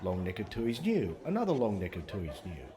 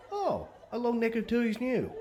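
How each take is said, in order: First: Said in the usual way. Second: Mock surprise. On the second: Shown as a demonstration. Mock surprise at another bottle.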